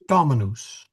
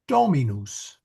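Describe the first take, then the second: First: The first vowel is kept short. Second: The first vowel is held long. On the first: The speaker calls it right. "the correct pronunciation of master is Dominus" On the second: The speaker calls it wrong. "we naturally tend to make it long"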